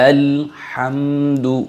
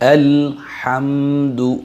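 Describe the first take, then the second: Both takes have the same delivery.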